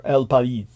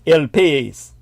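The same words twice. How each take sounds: First: El País said slowly as "el pa-ees"; El País with its vowels split and drawn out; careful El País. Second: El País said as "el pez"; El País with the vowels run together; Spanish-style El País. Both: Shown as a demonstration. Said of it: "or El País".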